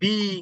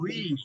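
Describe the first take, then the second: First: The syllable begins with a b sound. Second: The syllable begins with a rounded w sound. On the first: The speaker calls it wrong. "অনেকে বলে ওয়াউজের বি ... এইগুলো কোনোটাই না" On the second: The speaker calls it right. "ওয়াউজের উই"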